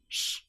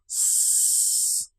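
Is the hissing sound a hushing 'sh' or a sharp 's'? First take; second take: hushing 'sh'; sharp 's'. First: A hushing sound made with the tongue further back. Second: A clear, sharp hiss with the tongue forward. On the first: This is how some European speakers say it. The speaker calls it wrong. "In some European countries, we might hear sh... With the tongue further back" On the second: This is how it sounds in English. The speaker calls it right. "But in English, it's a very clear and distinct sound"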